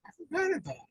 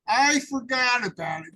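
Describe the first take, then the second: First: Lifted high and light, set apart from his own voice. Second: Louder and firm, leaning on I; louder, emphatic. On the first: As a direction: say it high up, almost as an aside. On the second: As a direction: declare it out loud like a confession. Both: Shown as a demonstration. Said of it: "John said".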